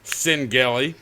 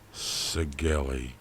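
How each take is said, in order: First: An n sound comes before the g. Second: No n sound comes before the g. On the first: The speaker calls it wrong. "There's no N in that fucking word" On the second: The speaker calls it right. "Sigeli, not Sin Gelly"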